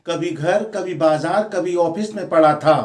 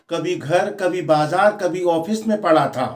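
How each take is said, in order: Both takes have the same delivery.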